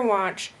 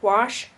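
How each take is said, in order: First: Said in the usual way. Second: "wash" ending in SH for watch; slow, careful "wash" with a hushing end. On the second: Shown as a demonstration. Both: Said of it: "merging of S H and C H".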